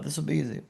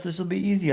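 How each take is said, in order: First: Low, soft and knowing, hinting it won't be easy; knowing, ironic. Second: Said in the usual way. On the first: Shown as a demonstration. Telling the audience, a wry hint it won't be easy. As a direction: let the doubt show under the words. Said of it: "Hinting it's not gonna be easy". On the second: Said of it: "I thought".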